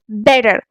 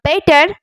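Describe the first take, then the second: First: The middle t is a soft D tap. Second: The middle t is a hard T sound. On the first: The speaker calls it right. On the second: The speaker calls it wrong.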